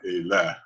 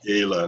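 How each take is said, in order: First: The stress is on the last syllable. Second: The stress is on the first syllable. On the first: The speaker calls it wrong. "not Ele" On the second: The speaker calls it right. "I think it's on the first syllable"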